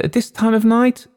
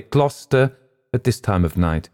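First: Much higher, louder disbelieving question; can't believe the late request; incredulous operator. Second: Steady, level, no question in it; firm. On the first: Telephone operator doubting a call to Gloucester, incredulous. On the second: Pilot insisting to the operator, firm reply. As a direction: state it flatly, brooking no doubt. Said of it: "I replied firmly". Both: A narrator's reading.

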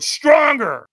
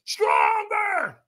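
First: Loud, high demand for more; imitating a shouting coach; trainer's scream. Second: Very high full-throated yell; trainer's piercing demand, imitated; retold scream. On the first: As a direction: push them harder with a shout. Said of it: "So he screamed at me". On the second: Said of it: "So he screamed at me, got in my face and screamed at me".

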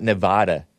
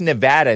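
First: "Nevada" with the open a of "father"; mistaken Nevada pronunciation. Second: "Nevada" with the short a of "cat"; stressed middle syllable, nuh-VAD-uh; local Nevada pronunciation. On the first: Host showing the pronunciation to avoid, "Nevada" with a father vowel. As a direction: say "Nevada" as nuh-VAH-duh. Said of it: "not Nevada". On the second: Host correcting how the state is pronounced, "Nevada" with a cat vowel. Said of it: "it's pronounced Nevada". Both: Shown as a demonstration.

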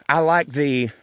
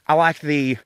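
Both takes have the same delivery.

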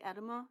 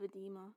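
First: EDEMA stressed on the first syllable; mispronounced edema. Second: EDEMA stressed on the middle syllable; standard edema pronunciation. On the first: Co-host admits how she still says the term, mispronounced ED-uh-muh for edema. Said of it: "I'll still say edema instead of edema". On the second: Co-host corrects her own term, edema said as eh-DEE-muh. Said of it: "instead of edema". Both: Shown as a demonstration.

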